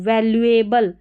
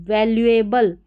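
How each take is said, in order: The two takes are said the same way.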